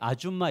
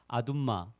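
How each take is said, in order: First: The middle consonant is a j sound. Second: The middle consonant is a d sound. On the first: The speaker calls it right. "아줌마 이래야 되는데" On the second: The speaker calls it wrong. "정확하지 않는 발음으로"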